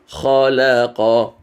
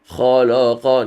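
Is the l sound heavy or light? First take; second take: light; heavy. First: The l sounds light and clear. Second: The l sounds heavy and dark. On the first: The speaker calls it right. "No, it's khalaqa" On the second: The speaker calls it wrong. "then the lam becomes la"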